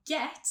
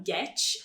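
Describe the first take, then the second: First: Said in the usual way. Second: "get" ending in tch, like "getch"; Brazilian tch ending. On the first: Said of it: "ao invés de get". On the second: Shown as a demonstration. Teacher mimicking learners' habit, "get" as getch. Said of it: "A tendência no português".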